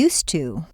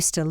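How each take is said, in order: First: The vowel in 'to' is a full tense oo. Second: The vowel in 'to' is a reduced schwa. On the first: "At the end of a sentence" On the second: "In the middle of a sentence"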